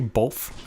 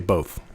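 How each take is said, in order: First: It is said with an L sound. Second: It is said without an L sound. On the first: The speaker calls it wrong. "used to say both" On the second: The speaker calls it right. "Now I say both"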